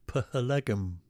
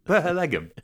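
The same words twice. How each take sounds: First: Phalegum, every letter sounded, the P and h split: pha-le-gum; spelt-out pronunciation. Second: Phalegum echoed with each letter sounded, pa-he-le-gum; spelt-out pronunciation. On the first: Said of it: "was it P H L E G M?". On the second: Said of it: "P-, Phalegum". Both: Shown as a demonstration.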